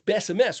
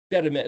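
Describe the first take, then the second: First: The consonants are pronounced as s sounds. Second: The consonants are pronounced as t sounds. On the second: "It's not Betamet"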